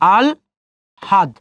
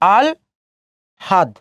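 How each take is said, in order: The two takes are said the same way.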